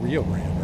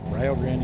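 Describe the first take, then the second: First: The i in Rio is said like ee. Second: The i in Rio is said like eye. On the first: This is how people elsewhere say it. "you mean Rio Grande, right?" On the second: This is how people in Ohio say it. "that's how we pronounce it"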